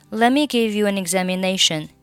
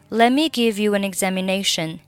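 No difference in how they are said.

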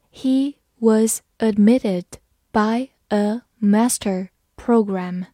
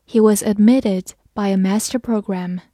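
First: Slow, careful read-through. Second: Said in the usual way. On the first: Shown as a demonstration. Teacher reads the sentence slowly to students, slow and careful. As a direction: read it slowly word by word for learners. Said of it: "好，慢读一遍". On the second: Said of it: "慢读一遍".

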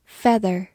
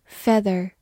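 The two takes are said the same way.

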